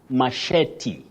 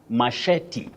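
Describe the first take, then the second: First: The stress falls on the second syllable. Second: The stress falls on the second syllable.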